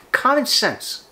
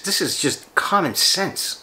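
First: "common sense" shot up high, stress on "common"; exasperated stress. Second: Slow emphatic. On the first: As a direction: throw up your hands at "common". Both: Real, not acted.

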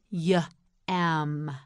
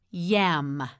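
First: Y-am split into "yuh" and a long "am"; Y-am in two drawn-out parts with a gap; sounded out. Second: Said in the usual way. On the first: Shown as a demonstration. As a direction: break Y-am after the first sound. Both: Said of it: "You say it, say yam".

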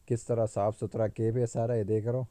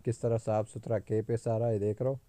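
The two takes are said the same way.

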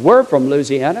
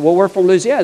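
First: "We're" stressed as an echoing reply. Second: Said in the usual way. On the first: Retold or imitated. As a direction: lean on "We're", as if claiming it too. Strangers echo with matching origin.

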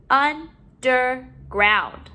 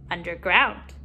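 First: "Underground" slowly, in separate syllables. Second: Said in the usual way. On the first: Shown as a demonstration. Teacher modeling syllables to put together, broken up. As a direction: pause between each syllable of "Underground". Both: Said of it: "let's put our syllables together".

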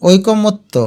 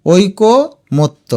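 First: Said in the usual way. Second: ঐকমত্য slowly as oiko, motto; broken into parts. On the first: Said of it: "এটার উচ্চারণ". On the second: Shown as a demonstration. Teacher urges students to say it aloud, ঐকমত্য in slow parts. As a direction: pause in the middle of ঐকমত্য. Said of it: "তুমি মুখে উচ্চারণ করবে".

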